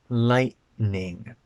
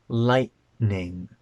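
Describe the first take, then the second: The two takes are said the same way.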